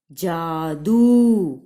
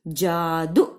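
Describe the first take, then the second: First: जादू with the final ऊ dragged out very slowly and loudly; slow, loud जादू ending in a long ऊ. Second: Said in the usual way. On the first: Shown as a demonstration. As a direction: pull the last ऊ of जादू long. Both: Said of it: "बहुत देर तक लंबा खींच रहे हैं".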